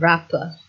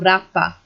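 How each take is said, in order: First: It ends in a weak schwa vowel. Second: It ends in a full open vowel. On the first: "if you wanted to pronounce it with British English" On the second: "schwa is not used at all"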